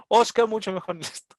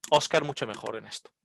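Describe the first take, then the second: First: Insistently praising Óscar, punching Óscar; emphatic praise. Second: Said in the usual way. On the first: Retold or imitated. Quotes the lady's repeated praise. (elogio enfático, acento fuerte en Óscar)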